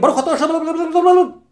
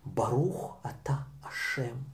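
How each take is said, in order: First: The phrase is said quickly and rushed. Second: The phrase is said slowly and carefully. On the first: The blessing is said without attention to meaning. The speaker calls it wrong. "мы не говорим" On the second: The blessing is said with attention to meaning. The speaker calls it right. "мы говорим"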